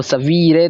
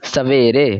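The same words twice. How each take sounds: First: सवीरे with an ई sound instead of ए; wrong reading. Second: सवेरे with a clear ए sound; right reading. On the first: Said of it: "गलत लग रहा है". (गलत उच्चारण: सवीरे) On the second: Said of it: "सवीरे तो नहीं हो जाएगा". (सही उच्चारण: सवेरे) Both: Shown as a demonstration.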